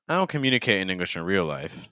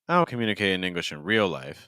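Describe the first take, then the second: The two takes are said the same way.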